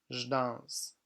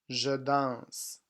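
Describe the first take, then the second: First: 'Je' is reduced to a bare 'zh' sound. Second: 'Je' is said as a full syllable with its vowel. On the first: This is how it is spoken casually. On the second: This is how it is written.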